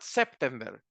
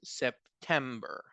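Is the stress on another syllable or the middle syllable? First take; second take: another; middle. First: The stress is not on the middle syllable. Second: The stress is on the middle syllable. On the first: The speaker calls it wrong. "It's not September" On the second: The speaker calls it right. "have the stress of the word in the middle of the word"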